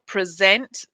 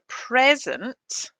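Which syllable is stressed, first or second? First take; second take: second; first. First: The stress is on the second syllable. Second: The stress is on the first syllable. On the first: It is used as a verb. "if it's the verb, the stress is on the second syllable" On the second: It is used as a noun. "if it's a noun, the stress is on the first syllable"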